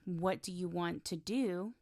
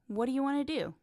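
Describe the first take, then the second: First: Every word is pronounced fully and separately. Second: The words are reduced and run together.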